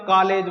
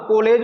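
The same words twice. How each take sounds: First: The first vowel is a full aa sound. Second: The first vowel is a full o sound. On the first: "ना पूरा आ बोलेंगे" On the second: "ना पूरा को बोलेंगे"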